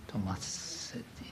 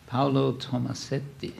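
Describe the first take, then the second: First: Tomasetti breathed out as a whisper, no voice; whispered to himself. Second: Said in the usual way. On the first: Real, not acted. Lecturer checking the artist's name, whispering it to himself.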